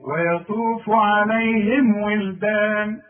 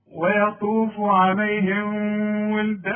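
First: ويطوف عليهم recited slowly with lips closed on the meem; the right way, slow and firm; correct clear meem. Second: ويطوف عليهم with the meem blurred into the واو; the wrong way; wrong take. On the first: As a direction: clear meem before the واو. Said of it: "لازم تقول لي". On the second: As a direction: meem hidden before ولدان. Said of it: "لا غلط". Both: Shown as a demonstration.

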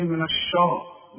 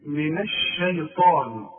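First: الشا with a thick, heavy ش; the mistake of thickening الشا; wrong heavy shin. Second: الشيطان with a thin ش, slowly; correct shin. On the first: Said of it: "اوعى تقول لي". (الشين المفخمة الخطأ) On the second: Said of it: "اوعى تقول لي من الشا". (الشين مرققة في الشيطان) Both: Shown as a demonstration.

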